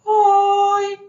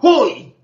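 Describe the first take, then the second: First: It is said softly, in a mincing voice. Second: It is shouted angrily with high pitch.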